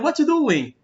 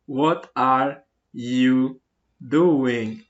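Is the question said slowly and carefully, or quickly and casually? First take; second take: quickly, casually; slowly, carefully. First: It is said quickly, with the words run together. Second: It is said slowly, with every word spelled out.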